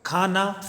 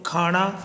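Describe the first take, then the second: First: The n is said with a dental n sound. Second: The n is said with a retroflex n sound. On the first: This is the standard Hindi form. "Hindi में जहाँ न" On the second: This is the Khadi Boli dialect form. "खड़ी बोली में इसको बोले खाना"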